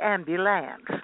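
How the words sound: It is said with a Southern US accent. "I don't say ambulance anymore"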